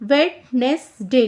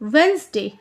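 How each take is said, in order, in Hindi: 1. बीच वाले 'd' सहित हर अक्षर बोला जाता है। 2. बीच का 'd' मौन है, इसलिए दो शब्दांश बनते हैं। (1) "लिखने में वेडनेसडे लिखेंगे" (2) "डी साइलेंट है तो इसलिए हम पढ़ेंगे वेंसडे"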